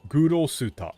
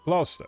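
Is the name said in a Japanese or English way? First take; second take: Japanese; English. First: It is said with Japanese syllables, Gu-ro-su-ta. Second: It is said as a two-syllable English name. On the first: "his name in in Japanese is Gurosuta" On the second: "That's that's not actually how you pronounce the name in English"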